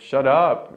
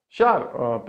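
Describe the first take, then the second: First: The stress falls on the word up. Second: The stress falls on the word shut. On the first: The speaker calls it right. "instead of the the preposition" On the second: The speaker calls it wrong. "I stressed, for example, the verb"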